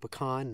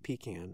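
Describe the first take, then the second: First: The first syllable does not sound like 'pee'. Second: The first syllable sounds like 'pee'. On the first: The speaker calls it right. "I say pecan" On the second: The speaker calls it wrong. "because a pecan you piss into"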